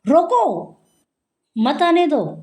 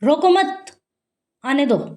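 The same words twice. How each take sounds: First: The pause comes after 'roko'. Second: The pause comes after 'mat'. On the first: Stop them; do not let them come. "दूसरा मैंने बोला" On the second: Do not stop them; let them come. "जैसे रोको मत, आने दो"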